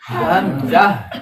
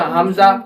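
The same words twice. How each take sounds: First: हमजा slow, from the lower throat; throaty hamza. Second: हमजा with a light h, not from the throat; wrong hamza. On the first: Teacher models हमजा from the lower throat, slowly. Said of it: "नीचे वाले हलक से आवाज निकलेगी". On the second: Teacher shows the wrong हमजा to avoid. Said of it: "गलत है". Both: Shown as a demonstration.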